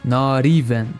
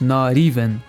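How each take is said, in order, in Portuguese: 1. O T é pronunciado como um flap suave, parecido com R. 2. O T é pronunciado como um flap suave, parecido com R.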